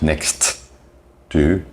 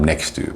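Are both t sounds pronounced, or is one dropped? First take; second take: both; one dropped. First: Both t sounds are pronounced separately. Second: One t drops and the words run together. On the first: The speaker calls it wrong. "is not pronounced next to" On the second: The speaker calls it right. "The one T disappears and they link together to become next to, almost like one word"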